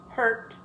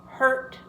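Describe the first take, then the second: No difference in how they are said.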